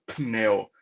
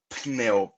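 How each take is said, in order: The two takes are said the same way.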